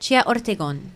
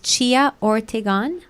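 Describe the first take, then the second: First: The name is said with a Spanish accent. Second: The name is said with an English accent.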